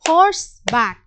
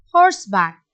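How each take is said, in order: First: Horseback pitched higher as the call. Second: Horseback dropped lower as the answer. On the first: Teacher calling horseback high for the class. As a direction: horseback sung up high first. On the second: Teacher answering horseback low for the class. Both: Shown as a demonstration. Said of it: "this is a two syllable word".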